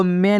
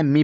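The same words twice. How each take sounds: First: मैं with an open "e" vowel, "meh"; wrong reading of ME. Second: मी with a long "ee"; correct reading of ME. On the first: Teacher warning learners off a misreading, मैं as "meh". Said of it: "नहीं पढ़ना". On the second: Teacher giving learners the right reading, मी as "mee". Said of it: "इसे आपको क्या पढ़ना है". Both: Shown as a demonstration.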